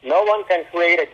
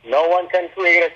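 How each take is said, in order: Both takes have the same delivery.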